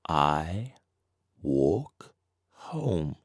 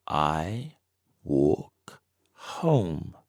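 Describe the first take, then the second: No difference in how they are said.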